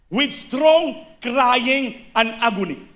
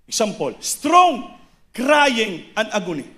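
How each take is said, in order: First: Each word drawn out slowly and weighted, strong leaned on; slow emphatic reading. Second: Said in the usual way. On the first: Shown as a demonstration. Preacher quoting scripture to the congregation, slow and weighty. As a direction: read With strong crying and agony slowly, pressing strong.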